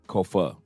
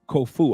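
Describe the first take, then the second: First: The final vowel is a Spanish-style 'a'. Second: The final vowel is not a Spanish-style 'a'. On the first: The speaker calls it right. "The A makes the same sound like it does in Spanish" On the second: The speaker calls it wrong. "Did I pronounce it correctly?"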